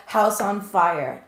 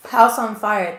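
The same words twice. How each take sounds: First: Slow, deliberate repeat of the words. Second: Louder, quick exclamation at the card's message; blurted reveal. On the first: Shown as a demonstration. Reader repeating the spirit's words to viewers, slow and deliberate. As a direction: spell out the message slowly. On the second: Real, not acted. Tarot reader blurting out the message to viewers, loud and sudden. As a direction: call out what the spirit said. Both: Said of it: "They literally just said".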